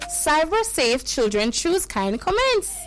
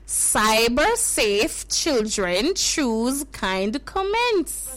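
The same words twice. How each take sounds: First: It is said fast. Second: It is said slowly.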